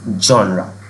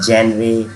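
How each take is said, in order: First: The word starts with 'zhon' and ends in 'ruh'. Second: The word starts with 'jen' and ends in 'ray'. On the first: The speaker calls it right. "इसकी जो correct pronunciation है वो होती है जॉनरा" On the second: The speaker calls it wrong. "अगर आपने इसको pronounce किया है जेनरे या जेनरा"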